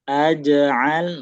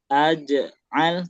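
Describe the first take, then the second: First: The word flows straight through without a break. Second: There is a short break inside the word. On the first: The speaker calls it right. "tapi langsung" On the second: The speaker calls it wrong. "jangan kasih jeda"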